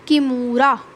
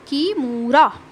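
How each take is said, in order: No difference in how they are said.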